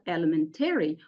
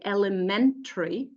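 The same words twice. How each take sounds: First: Elementary with the ending said as "-tair-ee"; wrong pronunciation. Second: Elementary with the ending reduced to "-tuh-ree"; correct pronunciation. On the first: Teacher modelling the wrong "airy" ending of elementary. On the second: Teacher modelling the correct schwa ending of elementary. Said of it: "we say". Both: Shown as a demonstration.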